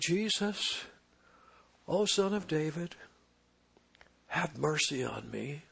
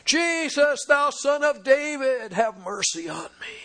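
First: It is said quietly, without force. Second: It is cried out loudly, with full force.

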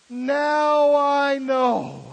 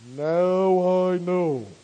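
First: It is said in his normal voice. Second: It is said in a deep God voice.

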